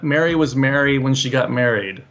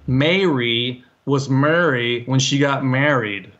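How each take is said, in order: First: All three words are pronounced the same way. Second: Each of the three words is pronounced differently. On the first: "for you, it sounds like they're all the same, which is same for me" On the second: "they would say ... all three were different"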